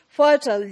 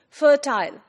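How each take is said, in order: First: The ending is a reduced 'ul', rhyming with turtle. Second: The ending is a full 'ile', rhyming with tile. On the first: "pronounced in American English. Fertile, like we pronounce turtle" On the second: "British English, the pronunciation would be fertile, il sound, like her tile"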